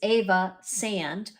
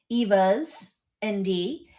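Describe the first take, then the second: First: The last part is said as one word. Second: The last part is spelled out as letters. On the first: The speaker calls it right. "I think it's" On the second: The speaker calls it wrong. "the first time I said your name, I said"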